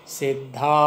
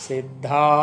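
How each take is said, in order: No difference in how they are said.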